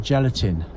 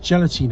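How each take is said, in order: First: The last syllable has a short i vowel. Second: The last syllable has a long ee vowel. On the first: This is the form most people use now. "They all say gelatin" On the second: This is the older form the speaker prefers. "nobody says gelatine anymore"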